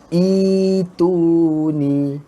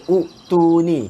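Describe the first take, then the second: First: The word starts with a long ee vowel. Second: The word starts with a short oo vowel. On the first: The speaker calls it right. "kita baca itu ni" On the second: The speaker calls it wrong. "Kita tak baca u tu ni"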